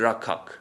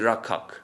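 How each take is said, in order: First: The middle consonant is a kh sound. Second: The middle consonant is a kh sound.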